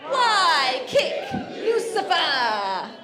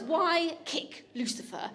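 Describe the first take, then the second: First: Very slow, loud chant of "Why kick Lucifer?", higher; group chant. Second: Slow, spelled-out "Why kick Lucifer?" with a laugh; slow demo of magic words. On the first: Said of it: "we're all gonna say it together". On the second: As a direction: teach the guests the phrase, word by word. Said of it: "I'm gonna say it's". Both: Shown as a demonstration.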